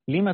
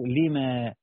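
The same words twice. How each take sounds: First: The final vowel after m is short. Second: The final vowel after m is long. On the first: This is the form used in the verse. "لما تقولون" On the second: This is the original full form. "الأصل لما"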